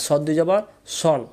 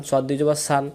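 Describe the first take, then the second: First: সন as a rounded "sawn"; correct Sad sound. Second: সান with open "aa", just like Sin; wrong Sad sound. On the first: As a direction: end স দুই জবর on round সন, not "saan". (সন, আকার ছাড়া গোল উচ্চারণ) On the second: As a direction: end স দুই জবর on a spread "saan". (সান, সিনের মতো ভুল উচ্চারণ) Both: Shown as a demonstration. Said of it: "তাহলে উচ্চারণ ভুল".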